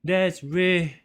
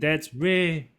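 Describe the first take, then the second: No difference in how they are said.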